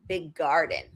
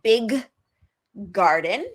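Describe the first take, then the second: First: The two g sounds merge into one long g. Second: The two g sounds are said separately with a gap. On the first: The speaker calls it right. "we prolong it. We make it a longer sound" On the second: The speaker calls it wrong. "I don't say big garden. That's that takes up a lot of energy"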